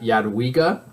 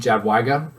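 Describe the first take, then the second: First: The name begins with a Y sound. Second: The name begins with a J sound. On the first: The speaker calls it right. "I guess it's Yad Yadwiga" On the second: The speaker calls it wrong. "I was saying Jadwiga earlier. I was corrected... saying that incorrectly"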